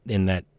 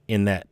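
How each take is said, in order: Both takes have the same delivery.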